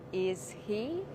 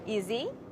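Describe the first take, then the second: First: The words are said slowly and separately. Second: The words are said fast and run together. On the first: The speaker calls it wrong. "Don't say" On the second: The speaker calls it right. "Speak fast. Say"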